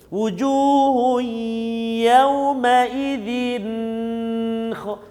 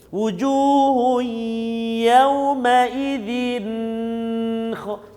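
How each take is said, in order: First: The n sound is held before kha. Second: The same.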